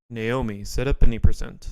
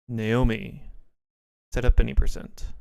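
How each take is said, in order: First: The phrase is said at a faster pace. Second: The phrase is said at a slower pace.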